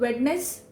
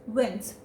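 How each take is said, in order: First: The 'd' sound is clearly pronounced. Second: The 'd' sound is left out entirely. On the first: "So Wednes will become as Wens" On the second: "simply Wens"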